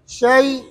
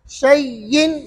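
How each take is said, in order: First: The word is cut short with no -in ending. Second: The word ends with a full -in ending. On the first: The reader stops on this word. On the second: The word is read without stopping.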